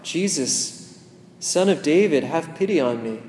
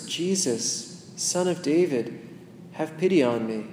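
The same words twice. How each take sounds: First: Crying out. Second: Inner plea. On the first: Pretend. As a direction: call out desperately to Jesus from the roadside. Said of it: "that makes you cry out". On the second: Shown as a demonstration. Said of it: "imagine yourself saying those words".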